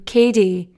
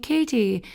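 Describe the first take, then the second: First: The middle consonant sounds like a d. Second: The middle consonant is a crisp t sound. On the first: "with a D" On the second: "you're pronouncing the T in Katie"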